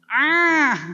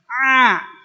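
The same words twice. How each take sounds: First: The sound comes out through the nose. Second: The sound comes from the middle of the throat. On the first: The speaker calls it wrong. "ada yang ngucapin huruf Ain jadi ngirung" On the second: The speaker calls it right. "tenggorokan bagian tengah"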